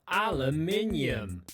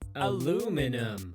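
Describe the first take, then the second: First: It is said with a British pronunciation. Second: It is said with an American pronunciation.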